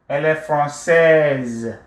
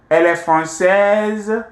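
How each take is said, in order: First: The voice falls at the end. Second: The voice rises at the end. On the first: It is a statement of fact. "this is a statement before becoming a question" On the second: It asks a yes or no question. "you raise your voice a little bit"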